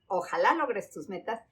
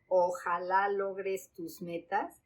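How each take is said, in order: First: It is said expressively, with changing intonation. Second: It is said flat, with no intonation changes. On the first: The speaker calls it right. "sí lo tiene. Hay cambios de entonación" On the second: The speaker calls it wrong. "cero prosodia"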